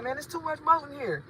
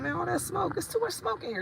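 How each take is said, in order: First: Mock country accent dropping the s; nephew's Southern way. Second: Much higher voice saying smoke clearly; high playful demo of smoke; her own way, mocked. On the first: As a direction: imitate the nephew's Southern speech. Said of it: "He be like". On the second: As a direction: show how she says smoke, pitched up. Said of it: "But I say smoke".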